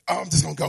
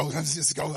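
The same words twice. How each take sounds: First: A louder, eager burst of impatience; like a believer who can't wait for God's signal, louder and eager; impatient eager rush. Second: Said in the usual way. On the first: Retold or imitated. Preacher acting an impatient believer rushing ahead, louder. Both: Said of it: "and I'm really excited".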